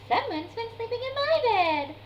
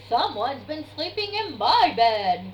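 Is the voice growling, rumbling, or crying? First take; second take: rumbling; growling. First: It is rumbled in Mama Bear's voice. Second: It is growled in Daddy Bear's voice.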